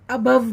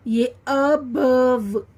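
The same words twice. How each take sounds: First: Said in the usual way. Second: अबव drawn out slowly, syllable by syllable, x0.5; slow teaching demo. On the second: Shown as a demonstration. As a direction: stretch out अबव slowly for the kids. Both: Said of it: "ये अबव, अबव बनेगा".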